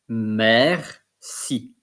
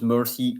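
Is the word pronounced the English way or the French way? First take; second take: French; English. First: It is pronounced like the French word. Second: It is pronounced like the English word. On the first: The speaker calls it right. "It's in French merci" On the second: The speaker calls it wrong. "it's not mercy"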